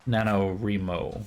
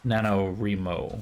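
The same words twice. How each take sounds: First: The third syllable sounds like 'reek'. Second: The same.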